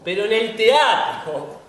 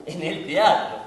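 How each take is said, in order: First: Slow, louder, higher proclamation; grand drawn-out "teatro"; emphatic declaration. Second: Said in the usual way. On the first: Acted. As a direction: declaim it like a credo. Repeats phrase for emphasis.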